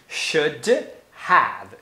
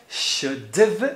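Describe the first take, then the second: First: Both words are said fully with a clear have. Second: Have shrinks to a short v sound. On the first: "a pronúncia de should have deveria ser essa aqui" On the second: "é comum você ter a pronúncia should've"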